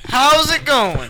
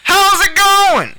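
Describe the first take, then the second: First: It is said loudly and excitedly. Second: It is screamed as if across a field.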